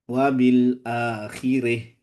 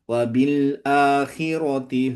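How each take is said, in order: First: The word ends on a stopped, e-like 'ih' sound. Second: The word ends on a full 'ati' sound. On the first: The reciter stops at this word. "kalau berhenti ... ya diimlahkan" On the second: The reciter continues without stopping. "kalau wasol ya berarti biasa aja"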